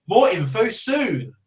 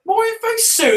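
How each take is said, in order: First: Said in the usual way. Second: Much higher, squeaky mocking echo; mocking squeak. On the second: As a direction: parrot it back in a silly high voice. Echoing the reply mockingly.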